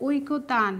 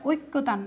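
First: ঐক্য তান said as oi-ko-taan, with a single k; careful oi-ko-taan for ঐক্য তান, no doubled k; correct pronunciation. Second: ঐক্য তান said as oik-ko-tan, with doubled k; wrong-example oik-ko-tan for ঐক্য তান; mistaken pronunciation. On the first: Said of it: "তোমার শুদ্ধ উচ্চারণ করতে হবে". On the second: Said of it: "এটা ঐক্য তান না।". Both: Shown as a demonstration.

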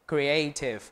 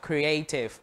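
Both takes have the same delivery.

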